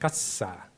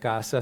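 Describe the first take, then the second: First: The second vowel is held longer than the first. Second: The first vowel is held longer than the second. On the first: This is the Seri way of saying it. The speaker calls it right. "se pronuncia casa, ... se alarga la parte que viene después" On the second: This is the Spanish way of saying it. The speaker calls it wrong. "no se pronuncia casa"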